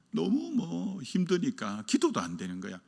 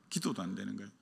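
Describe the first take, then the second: First: Said in the usual way. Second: Quiet echo. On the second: Acted. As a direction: drop to a near-murmur on '기도도 안 되는 거야'. Echoed quietly after line 7. (조용히 되뇌듯)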